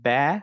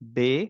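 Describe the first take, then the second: First: The vowel after b is a fronted ae. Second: The vowel after b is a closer e. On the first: "এগুলো বলব না।" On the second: "এগুলো বলব না।"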